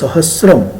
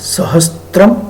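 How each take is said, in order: First: The s goes straight into r, no t. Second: A t sound comes between s and r. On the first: The speaker calls it right. "સાચો શબ્દ સહસ્રમ છે" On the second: The speaker calls it wrong. "સ્ત્રમ નથી"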